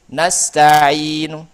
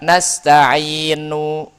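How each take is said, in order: First: The final vowel is only faintly, partly voiced. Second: The final vowel is said fully and clearly. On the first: The speaker calls it right. "tapi nasta'inu" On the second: The speaker calls it wrong. "jadi enggak enggak satu harokat. Enggak nasta'inu"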